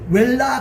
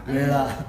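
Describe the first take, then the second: First: A full l sound comes before the last syllable. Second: Only a faint l sound comes before the last syllable. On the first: The speaker calls it wrong. "이게 웰라 그러면 한국식 발음이고" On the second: The speaker calls it right. "니을이 조금 묻어있는 웨라"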